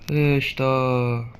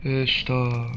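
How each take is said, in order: First: Very slow, stretched "قشطة"; "قشطة" stretched long and slow; drawn-out playful. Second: Said in the usual way. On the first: Pretend. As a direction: savour the word lazily.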